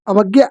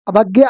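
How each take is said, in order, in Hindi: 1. दूसरे अक्षर को 'vag' की तरह बोला जाता है। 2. दूसरे अक्षर को 'bhag' की तरह बोला जाता है। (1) "सविनय अवज्ञ" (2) "बहुत से बच्चे अभाग्य बोलते हैं, जैसे मैंने अभी आपको बोल के बताया।"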